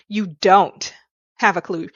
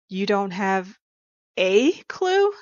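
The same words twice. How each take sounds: First: The stress falls on the word 'don't'. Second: The stress falls on the word 'a'.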